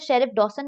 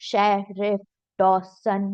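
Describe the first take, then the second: First: It is said at an ordinary, even pace. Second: It is said slowly and drawn out, robot-like.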